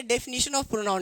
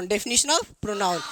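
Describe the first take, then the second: First: Said in the usual way. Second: Very slow, word by word; slow dictation. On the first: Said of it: "definition of pronoun, x0.4 dictation". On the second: Shown as a demonstration. Teacher dictating the heading to pupils, very slowly. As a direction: spell it out for pupils writing. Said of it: "repeated for dictation".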